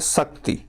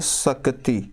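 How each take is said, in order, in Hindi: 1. शब्द बिना किसी अतिरिक्त स्वर के बोला जाता है। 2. शब्द के अंदर एक अतिरिक्त स्वर डाला जाता है। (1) "जैसे एक शब्द लिखा गया था शक्ति" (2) "इसको हम पढ़ रहे हैं शक्ति ... स्वर भक्ति उच्चारण ... दोष है"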